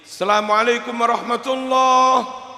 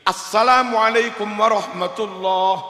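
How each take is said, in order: First: It begins with a plain 'salam', no article. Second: It begins with 'as-salam', the article included. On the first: The speaker calls it wrong. "Salam iku piye? Mboten oleh" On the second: The speaker calls it right. "Harusnya al ketemu sin macane as. Itu no sing bener"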